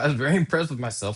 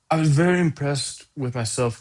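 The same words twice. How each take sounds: First: It is read in the speaker's own plain voice. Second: It is said in an imitated, put-on voice.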